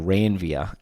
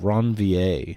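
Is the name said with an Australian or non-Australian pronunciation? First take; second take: Australian; non-Australian. First: The name is said in an Australian way. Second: The name is said in a non-Australian way.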